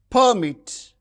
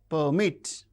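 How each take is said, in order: First: The stress is on the first syllable. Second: The stress is on the second syllable. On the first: It is used as a noun or adjective. "the stress is on the first syllable" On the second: It is used as a verb. "the stress is on the second syllable"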